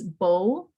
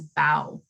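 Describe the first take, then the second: First: The vowel rhymes with 'go'. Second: The vowel rhymes with 'cow'. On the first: A ribbon tied in the hair. "Like a hair bow" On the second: Bending forward after a performance. "like I'm bowing"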